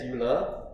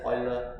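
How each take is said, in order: First: Euler said as "YOO-ler"; YOO-ler pronunciation. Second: Euler said as "OY-ler"; OY-ler pronunciation. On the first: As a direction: start Euler with a "you" sound. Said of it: "Some people pronounce that". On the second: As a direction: start Euler with an "oy" sound. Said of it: "Some people pronounce it as". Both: Shown as a demonstration.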